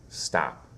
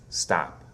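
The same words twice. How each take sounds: No difference in how they are said.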